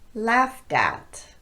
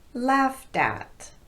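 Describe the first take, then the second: First: The words run together with a light D. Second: The words run together with a light D.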